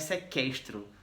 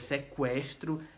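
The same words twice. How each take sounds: First: The u after the q is silent. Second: The u after the q is pronounced. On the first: The speaker calls it wrong. "não é sequestro" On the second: The speaker calls it right. "é sequestro"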